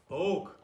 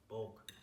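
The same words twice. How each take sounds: First: Bulk! yelled high and loud; shouted hype. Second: Said in the usual way. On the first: Real, not acted. Rallying his viewers with a loud Bulk!. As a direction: belt out the word Bulk! like a battle cry.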